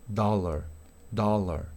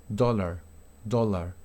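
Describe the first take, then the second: The two takes are said the same way.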